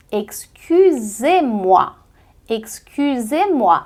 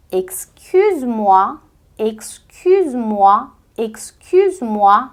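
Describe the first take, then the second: First: Excusez-moi slow, ending on a clear é; slow French drill. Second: Excuse-moi drawn out slowly, rising; slow French drill. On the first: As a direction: stretch excusez-moi, é at the end. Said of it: "ficam som de E". (excusez-moi devagar, som de é) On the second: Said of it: "Repete comigo". (excuse-moi bem devagar) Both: Shown as a demonstration.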